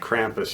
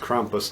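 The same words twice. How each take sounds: First: The name is said the American way. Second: The name is said in a non-American way. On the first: The speaker calls it wrong. "not Krampus, you American uneducated dummies" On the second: The speaker calls it right. "it's pronounced Krampus"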